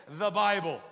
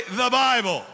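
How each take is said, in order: First: Said in the usual way. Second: Very loud, emphatic rallying call; booming prompt for a congregation to repeat; like you mean it. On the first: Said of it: "Everyone say". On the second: Shown as a demonstration. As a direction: shout it with full conviction. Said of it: "Say it like you mean it".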